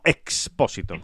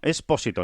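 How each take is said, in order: First: A ks sound comes before the p. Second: A plain s sound comes before the p. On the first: This is a different surname. The speaker calls it wrong. "no Expósito" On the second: This is the Italian surname. The speaker calls it right. "Con S, que es un apellido italiano"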